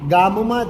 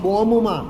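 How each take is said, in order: First: The first vowel is a plain open aa. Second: The first vowel is an open o-like vowel. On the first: This is the standard form. "ગામમાં જગ્યાએ" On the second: This is the North Gujarat dialect form.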